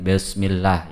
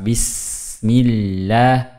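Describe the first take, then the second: First: The sounds are articulated loosely and indistinctly. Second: Each sound is articulated fully and distinctly. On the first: The speaker calls it wrong. "kurang jelas" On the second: The speaker calls it right. "Huruf sin dilepas"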